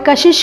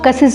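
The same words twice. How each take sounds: First: The hissing sounds are 'sh' sounds. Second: The hissing sounds are 's' sounds.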